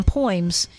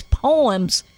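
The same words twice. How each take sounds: First: "poems" said as POY-ems, first vowels run together; her way of saying poems. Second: Said in the usual way. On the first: Retold or imitated. Host imitating how Nan says it, "poems" as "poyms". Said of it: "She's simply pronouncing it the way it would be in Greek". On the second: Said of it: "or as you like to call them".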